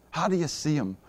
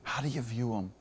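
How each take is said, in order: First: Said in the usual way. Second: Hushed question. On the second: Acted. Preacher hushing the room to ask how they view God, quiet. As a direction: drop to a near-hush and ask it gently.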